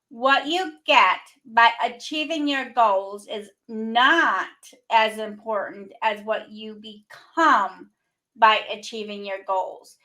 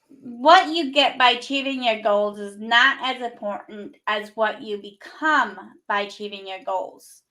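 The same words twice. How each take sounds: First: It is read slowly. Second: It is read at normal speed.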